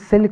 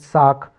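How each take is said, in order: First: It is said like silk, with an L. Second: It is said like saak, with no L. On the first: The speaker calls it right. "बल्कि सिल्क होना चाहिए" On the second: The speaker calls it wrong. "नहीं"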